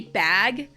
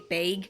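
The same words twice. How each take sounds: First: It is said in the speaker's own accent. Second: It is said in a northern Midwestern accent. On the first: "I say bag" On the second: "kind of a little bit northern Midwestern will say bag"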